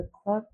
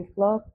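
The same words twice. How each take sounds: First: ক্লক with a breathy aspirated k and rounded o; British ক্লক, puff of air on the k; British pronunciation. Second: Said in the usual way. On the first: Shown as a demonstration. Teacher shows students the British ক্লক, aspirated. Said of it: "ব্রিটিশে বলা হয় ক্লক". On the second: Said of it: "আমরা বলি ক্লক".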